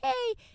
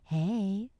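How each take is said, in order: First: It is said in a plain, casual tone. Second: It is said in a suggestive, flirty tone.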